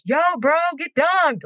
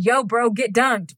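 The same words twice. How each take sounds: First: High-pitched heckle, no real volume; mock yell. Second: High, slow-drawn slang bro voice; slang Jesus. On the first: Shown as a demonstration. Heckling a baptism from the crowd, mock yell. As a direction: pretend to holler it across a church. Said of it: "just yell in the church". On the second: Acted. Co-host asked for slang Jesus, playful bro. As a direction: lightly play Jesus as a bro. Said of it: "Be slang Jesus for me".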